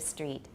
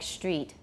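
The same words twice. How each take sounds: First: The first sound is s before the t. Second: The first sound is sh before the t. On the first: This is the traditional pronunciation. "instead of street" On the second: This is a newer pronunciation that is spreading. "S T is turning into st"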